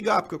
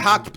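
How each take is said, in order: First: The name starts with a G sound. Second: The name starts with an H sound. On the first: "como se escreve" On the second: "tem som de H"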